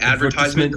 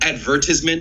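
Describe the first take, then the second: First: It is said with an American pronunciation. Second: It is said with a British pronunciation. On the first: "instead of advertisement" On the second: "like when a British person says like advertisement"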